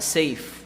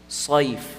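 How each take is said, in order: First: The s sound is light, with an empty mouth. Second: The s sound is heavy, with a full mouth. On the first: The speaker calls it wrong. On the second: The speaker calls it right.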